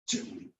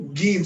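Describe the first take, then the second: First: The word begins with a soft j sound. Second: The word begins with a hard g sound. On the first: The speaker calls it right. "It's Jim" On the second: The speaker calls it wrong. "There's no Gim sound"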